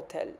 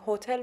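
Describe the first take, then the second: First: The word begins with a vowel, no h. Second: The word begins with an audible h sound.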